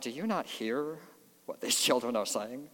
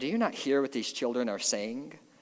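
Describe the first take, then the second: First: The question is asked in a snotty, contemptuous tone. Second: The question is asked in a plain, neutral tone.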